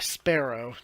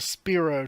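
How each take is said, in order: First: The name sounds like "sparrow", rhyming with "arrow". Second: The name starts with a "spear" sound. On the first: "he pronounced it more sparrow, so it sounded a bit more like arrow" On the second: "which way you f- pronounce it"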